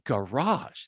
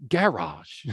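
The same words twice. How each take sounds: First: "garage" as guh-RAHZH, second syllable stressed; American stress. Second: "garage" as GA-razh, first syllable stressed. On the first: Teacher showing how we say it, "garage" stressed on the end. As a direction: slowly draw out RAHZH in "garage". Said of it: "We say garage". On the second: Teacher showing how UK speakers say it, "garage" stressed up front. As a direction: hit GA in "garage". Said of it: "They say". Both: Shown as a demonstration.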